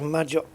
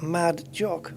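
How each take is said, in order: First: It is said as one single word. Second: It is said as two separate words. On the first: "I say it as one word" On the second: "Should I pronounce it as two?"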